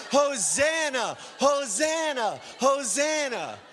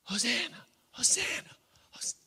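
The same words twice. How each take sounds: First: Slow, loud, high Hosanna shouts; ecstatic crying out. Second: Thin high mock cheer, held back in volume; half-hearted out-of-place Hosanna shout; inappropriate praise cry. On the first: Acted. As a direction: cry out with the multitude at full force. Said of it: "We are crying". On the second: Shown as a demonstration. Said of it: "It would be inappropriate in a way to".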